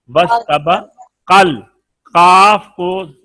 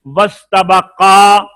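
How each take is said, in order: First: Slow वस्तबकल with alif dropped; joined recitation. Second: Slow, louder वस्तबका, each syllable clear; separate recitation. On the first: Teacher shows the alif deleted when joining. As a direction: glide वस्तबकल straight into the lam. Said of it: "अलिफ को खत्म कर देंगे". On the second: Teacher pronounces the word alone before joining. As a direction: say वस्तबका slowly and firmly. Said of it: "तो अब जब मिलाएंगे". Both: Shown as a demonstration.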